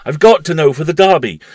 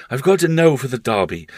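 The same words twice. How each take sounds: First: Much louder, higher, near-mad insistence; frantic repeat. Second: Put-on raised, intent boyish voice; a boy fixed on the race; urgent boy. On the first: Acted. Paul repeating himself to his uncle, louder and frantic. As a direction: repeat it with rising madness. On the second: Paul to his uncle, fixed on the Derby, urgent. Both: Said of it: "the child reiterated".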